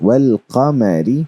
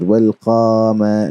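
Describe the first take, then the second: First: No vowel is stretched; all stay short. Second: A vowel is stretched out long. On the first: The speaker calls it right. "we would not stretch any letter" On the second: The speaker calls it wrong. "not like this"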